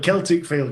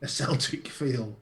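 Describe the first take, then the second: First: Celtic is said unlike the football club's name. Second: Celtic is said like the football club's name. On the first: It refers to the ancient Celts. The speaker calls it right. "I didn't mention the football club" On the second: It seems to refer to the football club. The speaker calls it wrong.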